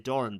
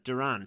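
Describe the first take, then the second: First: The surname is said with an Irish pronunciation. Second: The surname is said with a non-Irish pronunciation. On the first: The speaker calls it wrong. "I keep going into Irish and kind of wanting to say" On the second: The speaker calls it right. "but it's uh"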